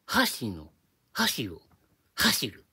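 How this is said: It is said with a Kansai pitch accent. "これ関西弁でやると"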